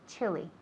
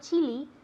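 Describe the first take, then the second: First: The first vowel is short. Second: The first vowel is long. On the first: The speaker calls it right. "It's a short I sound" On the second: The speaker calls it wrong. "Not chili"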